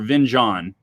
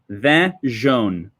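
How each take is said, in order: First: The name is said with an English pronunciation. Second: The name is said with a French pronunciation. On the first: "In in English, most people call this" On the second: "this is French pronunciation"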